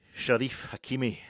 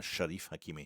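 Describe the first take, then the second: First: "Sharif Hakimi" called out loud and slow, each name weighted; slow, loud announcement of "Sharif Hakimi"; announcing the name. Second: Said in the usual way. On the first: Shown as a demonstration. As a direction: read "Sharif Hakimi" out like a headline. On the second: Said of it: "Was I thinking about Omar Sharif?".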